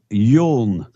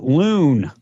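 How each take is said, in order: First: The name begins with a Y sound. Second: The name begins with an L sound. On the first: The speaker calls it right. "his name is is Yoon" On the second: The speaker calls it wrong. "He called him President Loon"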